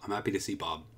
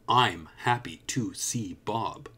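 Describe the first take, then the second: First: Some syllables are stressed, others reduced and quick. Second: Every syllable gets roughly equal length and weight.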